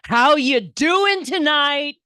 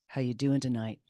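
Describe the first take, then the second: First: It is shouted in a deep, throaty voice. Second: It is said quietly, almost under the breath.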